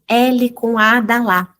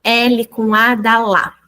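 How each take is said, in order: First: Slow letter-by-letter spelling out; teacher demo of syllable spelling; syllable-method spelling. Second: Slow spelling by letter names; name each letter slowly then the syllable; teacher demo again; syllable-method spelling. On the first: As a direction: spell it out by letter names, slowly. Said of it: "A gente ensina a família silábica dessa maneira". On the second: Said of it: "Por exemplo". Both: Shown as a demonstration.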